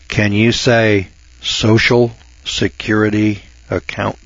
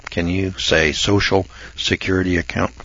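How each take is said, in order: First: Put-on slow and patronizing, like to children; slow kids-show teacher voice. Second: Put-on softer, lower, coaxing like to children; soft kids-show teacher voice. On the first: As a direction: spell it out slowly for kids. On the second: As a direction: coax it gently, patronizing. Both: Shown as a demonstration. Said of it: "boys and girls".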